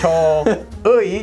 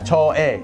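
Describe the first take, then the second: First: The second vowel glides like 'oo-ee'. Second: The second vowel is a plain 'e' sound. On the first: "instead of saying cho uy" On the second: "you can just say"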